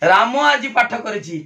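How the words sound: The stress falls on the word राम. Nobody other than this person did it. "राम उपरे गुरुत्व देली"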